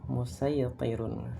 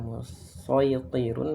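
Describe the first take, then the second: First: The s sound is plain and light. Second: The s sound is heavy and emphatic.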